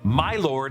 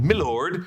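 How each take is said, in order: First: Both words are said fully and clearly. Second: The words are run together as milord. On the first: "Egg said" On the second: "instead of"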